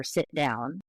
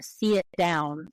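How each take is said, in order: First: Said in the usual way. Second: "see it" drawn out into two vowels for sit; Southern drawl on sit. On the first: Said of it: "for sit down". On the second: Shown as a demonstration. Linguist demonstrating Southern features, drawled "see it". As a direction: break "see it" into two syllables, Southern style. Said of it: "she had some Southern pronunciation features".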